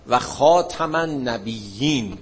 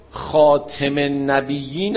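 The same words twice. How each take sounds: First: Slow "خاتم" as khaa-tam, a in the second syllable; khaatam reading. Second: "خاتم" as khaa-tem, e in the second syllable; khaatem reading. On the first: Teacher recites the familiar verse for students, slowly, "خاتم" as khaatam. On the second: Teacher offers students the alternative Quran reading, "خاتم" as khaatem. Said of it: "هم بخونی". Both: Shown as a demonstration.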